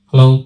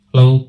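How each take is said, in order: First: The voice has boosted high treble frequencies. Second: The voice has boosted middle frequencies. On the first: "ট্রিবেলকে আমি দেখছেন boost করে দেখাচ্ছি" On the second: "মিডকে আমি বাড়াচ্ছি"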